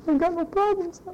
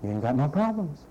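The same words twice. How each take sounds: First: Mock carefree voice. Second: Said in the usual way. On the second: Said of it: "repeats the line plainly".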